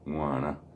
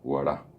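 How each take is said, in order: First: The g sound is nasal. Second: The g sound is plain and oral. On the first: The speaker calls it right. "puede decir, Chesipen Guaná" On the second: The speaker calls it wrong. "la persona que no está acostumbrada o que no aprendió a pronunciar la G va a decir"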